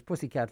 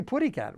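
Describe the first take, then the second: First: Said in the usual way. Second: "putty cat" with a T sound replacing the S; cartoon-style mispronunciation. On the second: Shown as a demonstration. Host corrects himself on pussycat fights, saying "putty cat" with a T. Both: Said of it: "Actually, putty cat".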